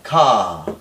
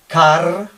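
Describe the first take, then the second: First: The word ends in a long vowel, no R. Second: The word ends with an audible R sound. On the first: "la R no sonaría" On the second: "un español diría eh, ca, car o algo así"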